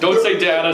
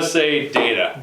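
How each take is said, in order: First: The first vowel is an open 'ah' sound. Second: The first vowel is an 'ay' sound. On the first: The speaker calls it wrong. "Don't say" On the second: The speaker calls it right.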